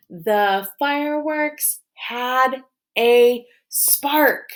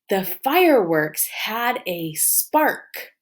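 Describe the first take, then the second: First: "The, fireworks, had, a, spark" slowly, higher, each word separate. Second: Said in the usual way. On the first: Shown as a demonstration. Teacher leading pupils through the sentence, "The fireworks had a spark" word by word. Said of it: "let's map it". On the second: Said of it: "What's my sentence?".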